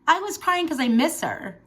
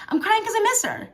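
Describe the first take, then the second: First: Said in the usual way. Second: Miss lifted high and leaned on; stress on miss. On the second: Real, not acted. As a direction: correct yourself by hitting miss, high and firm. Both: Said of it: "I'm not crying 'cause she's in heaven".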